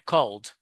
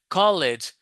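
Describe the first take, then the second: First: The ending joins the word with no extra syllable. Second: The ending is said as an extra syllable. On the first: The speaker calls it right. "people will understand it's called" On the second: The speaker calls it wrong. "If you say college, it will sound strange"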